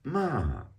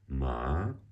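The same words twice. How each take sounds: First: The pitch falls sharply from high. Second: The pitch rises from middle to high.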